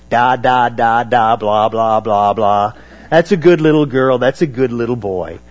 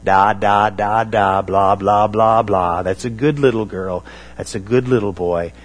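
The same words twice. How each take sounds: First: Sneering louder singsong da da blah blah; hammed-up scornful baby talk; mocking baby talk. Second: Put-on gentle sing-song baby talk. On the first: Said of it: "arrogant reply back to Isaiah". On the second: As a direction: coo it like speaking to a toddler. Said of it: "address them in baby talk".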